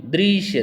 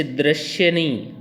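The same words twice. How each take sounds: First: दृश्य said carefully, higher, as dri-shya; teacher's corrected दृश्य; correct pronunciation. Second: दृश्य said the wrong way, as the mistake; दृश्य as a common mistake; wrong pronunciation shown. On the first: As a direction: model the right दृश्य clearly. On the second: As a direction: demonstrate the error in दृश्य. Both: Shown as a demonstration.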